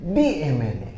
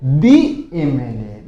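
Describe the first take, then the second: First: Softer repeat. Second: दी MLA very slow, dee em-el-ay; slow model answer. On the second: Teacher to class giving the answer slowly. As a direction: draw out दी MLA. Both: Shown as a demonstration. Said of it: "तो क्या लगाओगे".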